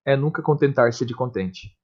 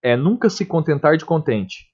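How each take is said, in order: First: "contentar-se" read smoothly in the verse's flow, softer; contrasting Camões' word order; flowing rhythmic reading. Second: Said in the usual way. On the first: Shown as a demonstration. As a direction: let the line flow in its meter. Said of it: "Fica bem diferente, flui de forma diferente". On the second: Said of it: "Ó, como que fica diferente".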